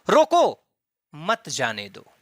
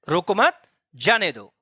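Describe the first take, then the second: First: The pause comes after रोको. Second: The pause comes after मत.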